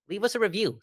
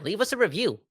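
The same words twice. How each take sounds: First: Higher voice, punching "us" with a falling finish; stress on us. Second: Higher voice, leaning on "review" with a falling finish; stress on review. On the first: Host pitching reviews to listeners, stress on us. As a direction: make "us" the point. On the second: Host pitching reviews to listeners, stress on review. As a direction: land the plug on "review". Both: Shown as a demonstration. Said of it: "repeats plug with new stress".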